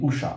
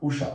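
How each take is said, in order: First: The first vowel is kept short. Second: The first vowel is kept short.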